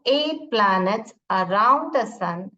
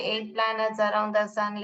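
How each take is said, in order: First: It is read with lively, expressive feeling. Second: It is read in a flat, expressionless way. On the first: The speaker calls it right. "तो आप सब लोग भी ऐसे ही recite करोगे" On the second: The speaker calls it wrong. "ऐसा नहीं पढ़ोगे ... ऐसे नहीं"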